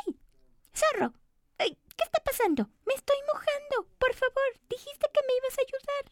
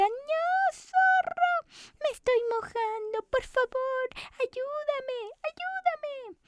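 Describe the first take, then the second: First: High, squeaky cookie, whiny and worried; a tiny cookie fretting at the fox; high little cookie complaining she's getting wet. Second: Very high, frantic cries for help; high cookie shrieking in panic at the fox; panicked cookie. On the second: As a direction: squeal for help as you sink. Cookie panics as water rises. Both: Acted.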